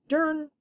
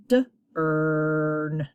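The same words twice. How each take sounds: First: Dern run together as one short syllable, pitched high; blended word. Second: D, then a long held ern; sounded out. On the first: Teacher finishing the sounded-out word, blended dern. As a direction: blend dern quickly, higher. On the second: Teacher modelling reading in your head, sounded out d, ern. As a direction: break it into short d and drawn-out ern. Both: Shown as a demonstration. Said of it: "Hopefully they're saying".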